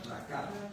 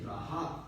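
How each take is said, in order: First: The middle consonant is a hard k sound. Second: The middle consonant is a breathy aspirated h. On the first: "Se podría leer de esta manera" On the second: "como aspirando la H A"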